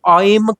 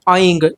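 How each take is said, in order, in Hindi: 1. इस शब्द का अंत m ध्वनि से होता है। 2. इस शब्द का अंत ng ध्वनि से होता है। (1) "अंग के बिंदु है उसे मां करके पढ़ते हैं" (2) "अंत में ये ग की ध्वनि"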